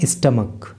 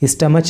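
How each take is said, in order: First: The word ends with a 'k' sound. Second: The word ends with a 'ch' sound. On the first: The speaker calls it right. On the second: The speaker calls it wrong. "C H को यहाँ पे चे नहीं बोलेंगे, स्टमच नहीं बोलेंगे"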